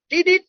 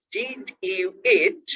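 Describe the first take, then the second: First: "Did it?" high and squashed into one quick unit; run-together American reduction. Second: "Did you eat?" slow, every word separate; careful full pronunciation. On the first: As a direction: toss off "Did it?" slurred together, American-style, pitched high. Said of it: "you have to go to America, not India". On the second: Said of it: "So if I say". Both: Shown as a demonstration.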